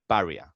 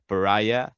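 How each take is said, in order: First: It is said with a Spanish-like pronunciation. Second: It is said with the English pronunciation. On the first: This is how the studio names its game. "more similar similar in Spanish, just saying paria" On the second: This is the standard English word. "the correct pronunciation should be pariah"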